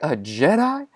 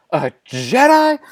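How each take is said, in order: First: Softer rising question; disbelieving echo. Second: Slow, high-pitched repeat; outraged echo. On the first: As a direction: echo it quietly, as if not believing it. First echo before an outburst. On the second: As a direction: stretch it out high in mounting outrage. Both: Acted.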